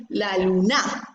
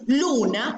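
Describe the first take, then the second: First: La luna said as a wrongly stressed lu-NA, weight on NA; stress on last syllable. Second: Luna with the stress on LU, na left weak; stress on first syllable. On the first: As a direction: draw out and stress the final NA of la luna. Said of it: "si decimos luna o decimos". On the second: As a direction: lean on LU in luna, as the correct form. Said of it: "la sílaba tónica sería lu". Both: Shown as a demonstration.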